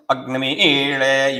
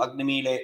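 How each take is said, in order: First: Slow, careful Agnimile with a long ii; correct Vedic pronunciation. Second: Agnimile said quickly as a-gni-mi-le, no long vowel; wrong pronunciation. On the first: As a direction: say Agnimile as a-gnə-MEE-le, drawn out and exact. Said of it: "whichever way you have to pronounce". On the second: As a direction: rush Agnimile flatly, the careless way. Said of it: "You cannot do". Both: Shown as a demonstration.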